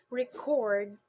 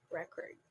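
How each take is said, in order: First: ReCORD, the verb, louder and drawn out on CORD; slow record, weight on the second syllable; stress on second syllable. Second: RECord, the noun, stressed at the front; weight on the first syllable of record, second one reduced. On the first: Teacher shows record as a verb, second syllable stressed slowly. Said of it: "use this word as a verb". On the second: Teacher shows record as a noun, first syllable stressed. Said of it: "use this word as a noun". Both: Shown as a demonstration.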